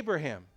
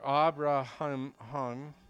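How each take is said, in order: First: The name is said with an American pronunciation. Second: The name is said with a non-American pronunciation. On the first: The speaker calls it wrong. "we have Americanized a lot of words out of the Bible" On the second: The speaker calls it right. "the correct way to say that name"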